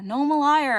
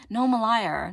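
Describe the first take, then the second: First: "liar" higher and louder, playful self-accusation; louder mock confession. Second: Said in the usual way. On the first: Real, not acted. Admitting clickbait to viewers, loud playful confession. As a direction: own it loudly, teasing.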